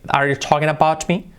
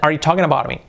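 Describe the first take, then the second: First: The t in 'about' is a crisp t. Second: The t in 'about' is a soft flap. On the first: The speaker calls it wrong. "they don't say" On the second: The speaker calls it right. "The T, they soften it, and so they make an R"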